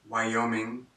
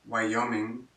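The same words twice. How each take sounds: Both takes have the same delivery.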